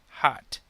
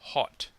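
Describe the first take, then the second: First: A North American accent with an unrounded vowel. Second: A British accent with a deeper, rounded vowel. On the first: "In North American English, this sound is more in the front or middle of the mouth, and the mouth is not as rounded" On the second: "In British English, the sound is deeper, purer, and the mouth is much more rounded"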